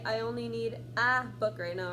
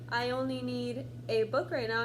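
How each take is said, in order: First: The word 'a' is said as a full 'ah'. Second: The word 'a' is said normally, without 'ah'. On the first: The speaker calls it wrong. "you're not going to say ah" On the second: The speaker calls it right. "If you're saying"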